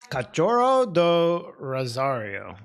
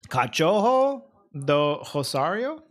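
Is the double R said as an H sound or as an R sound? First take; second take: R sound; H sound. First: The double R is said as an R sound. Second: The double R is said as an H sound. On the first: The speaker calls it wrong. "I don't know how to say that" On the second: The speaker calls it right. "The double R is an H as well"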